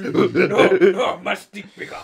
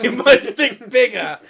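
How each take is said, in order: First: Loud, dumb ape-man boast; caveman voice. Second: Loud, slow caveman through laughter; laughing while playing a dumb ape-man. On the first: Retold or imitated. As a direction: grunt it like a proud caveman. Joins ape impression. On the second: Repeats ape impression laughing.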